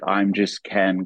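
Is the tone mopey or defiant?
mopey. It is said in a sad, mopey tone.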